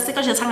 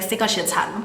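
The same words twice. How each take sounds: First: Mildly odd imitation of a command; weird. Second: Said in the usual way. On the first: Maid instructing the gardener with eyes closed, weird. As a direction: say it a little weirdly. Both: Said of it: "But then she does it weird".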